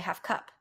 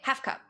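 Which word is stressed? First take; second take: cup; half. First: The word 'cup' is stressed. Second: The word 'half' is stressed. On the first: The speaker calls it right. "You say half cup" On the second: The speaker calls it wrong. "You don't say half cup"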